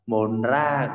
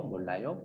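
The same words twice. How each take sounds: First: "mồn ra" with N then a separate R; wrong R reading. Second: "mồn léo" with a clear L in place of R; R read as L. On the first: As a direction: break "mồn ra" into an N and an R instead of L. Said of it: "không đọc như thế". (đọc sai "mồn ra" với âm R) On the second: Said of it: "tất cả đều đọc là L hết". (đọc "mồn léo" với âm L thay cho R) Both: Shown as a demonstration.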